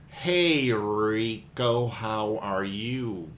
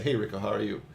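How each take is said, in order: First: Each word is over-articulated and choppy. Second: The words blend smoothly into each other.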